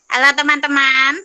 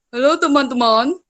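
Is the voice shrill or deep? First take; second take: shrill; deep. First: It is said in a shrill, thin voice. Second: It is said in a heavy, deep voice.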